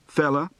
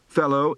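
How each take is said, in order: First: The final vowel is a reduced uh sound. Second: The final vowel is a full oh sound.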